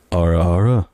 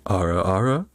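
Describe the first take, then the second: First: Louder, sultry "Ara, ara" with a lowered pitch; teasing ara ara. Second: Put-on a sly older-sister purr on "Ara, ara"; teasing ara ara. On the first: Pretend. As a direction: lean in and purr "Ara, ara" to the listener. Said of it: "Is that better?". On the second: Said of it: "Let me get in the headspace".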